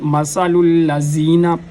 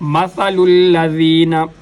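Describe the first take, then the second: First: The middle consonant is a heavy emphatic sound. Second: The middle consonant is a soft th-like sound. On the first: The speaker calls it wrong. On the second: The speaker calls it right.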